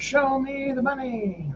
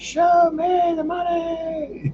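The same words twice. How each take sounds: First: It is said at normal volume. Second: It is said loudly, almost shouted.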